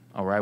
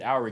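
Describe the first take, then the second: First: It is said like 'uh-rye', stress on 'rye'. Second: It is said like 'aw-ree', two even syllables. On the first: The speaker calls it right. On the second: The speaker calls it wrong.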